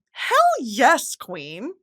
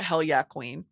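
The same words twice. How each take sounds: First: Sassy stress on "Hell yes"; emphatic cheer. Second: Low-key, softer approval; quiet nod of respect; understated cheer. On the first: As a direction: hit "yes" high, then drop away on "queen". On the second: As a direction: say it coolly, under your voice. First, understated take of the cheer. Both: Retold or imitated.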